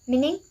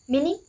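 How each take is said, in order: The two takes are said the same way.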